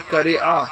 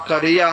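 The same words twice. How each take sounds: First: قریعہ with a catch before the final a; broken ending. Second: قریہ with a gliding -iya ending; joined ending. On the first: Arabic teacher showing other form for village, split final vowel in قریعہ. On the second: Arabic teacher showing word for village, gliding -iya in قریہ. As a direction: run the end of قریہ together as -iya. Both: Shown as a demonstration. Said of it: "دونوں طرح آپ بول سکتے ہیں".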